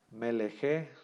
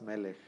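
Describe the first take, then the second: First: "Melejé" with the final sheba voiced as an extra E sound; wrong pronunciation. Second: "Melech" ending on the K sound with the final sheba silent; correct pronunciation. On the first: Hebrew teacher shows students the wrong reading, voicing the final sheba. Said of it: "Entonces no se pronuncia". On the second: Hebrew teacher gives students the correct reading, final sheba silent. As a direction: say "Melech" with stress on the first E and no vowel at the end. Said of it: "se pronuncia nada más Melech". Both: Shown as a demonstration.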